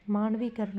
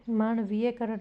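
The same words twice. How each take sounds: First: मानवीकरण said without ye, maan-vee-ka-ran; the right मानवीकरण, no ye after vee; correct form. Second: मानवीयकरण said with an extra ye syllable, maan-vee-ye-ka-ran; wrong form. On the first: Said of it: "मानवीकरण होगा". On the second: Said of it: "मानवीयकरण नहीं". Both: Shown as a demonstration.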